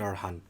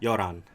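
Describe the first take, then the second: First: The middle h sound is clearly pronounced. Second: The middle h sound is dropped. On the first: The speaker calls it wrong. "You say Yoran, not Yorhan" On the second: The speaker calls it right. "So it sounds like Yoran"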